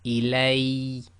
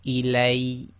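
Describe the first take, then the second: Both takes have the same delivery.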